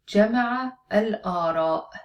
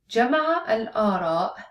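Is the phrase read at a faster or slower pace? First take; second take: slower; faster. First: The phrase is read at a slower pace. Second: The phrase is read at a faster pace.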